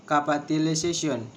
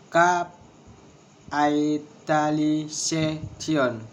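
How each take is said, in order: First: Said in the usual way. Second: "Capitalization" very slowly, broken into syllables. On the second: Shown as a demonstration. Teacher showing a word of six syllables, syllable by syllable. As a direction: stretch it out, one syllable at a time. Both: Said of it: "six syllables".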